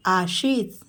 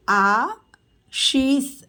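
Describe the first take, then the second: First: Said in the usual way. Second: Ashish stretched very slowly; slow teacher model of Ashish. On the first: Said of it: "quick plain repeat". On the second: Shown as a demonstration. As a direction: draw Ashish out sound by sound. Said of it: "teacher models name slowly".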